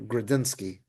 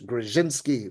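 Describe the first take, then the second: First: The middle consonant is a plain d sound. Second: The middle consonant is a blended dz sound.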